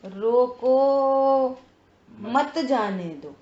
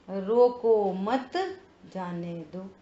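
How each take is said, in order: First: रोको drawn out long, a break, then मत जाने दो together; pause after रोको. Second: रोको मत run together, a break, then जाने दो; pause after मत. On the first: Teacher showing how four words shift meaning, pausing after रोको. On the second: Teacher showing the same words with another meaning, pausing after मत. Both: Shown as a demonstration. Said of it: "शब्द तो ये चार शब्द थे। अब इनका क्या भाव है".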